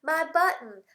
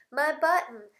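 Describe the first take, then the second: No difference in how they are said.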